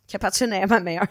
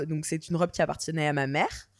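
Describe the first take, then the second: First: French with an English accent. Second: Said in the usual way. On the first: Real, not acted. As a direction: say it like an English speaker. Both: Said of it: "Je sais pas pourquoi j'ai un accent anglais".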